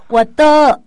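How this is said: It is said in a Thai accent.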